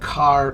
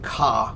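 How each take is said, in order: First: The final R sound is pronounced. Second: The final R sound is dropped.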